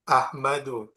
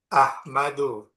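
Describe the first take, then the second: Both takes have the same delivery.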